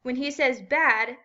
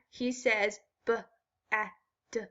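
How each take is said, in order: First: Said in the usual way. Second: "b-a-d" split into slow separate sounds b, a, d; robot-like, sound by sound "b-a-d". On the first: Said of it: "He can say words in a funny way". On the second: Shown as a demonstration. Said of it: "I have a robot friend. He can say words in a funny way".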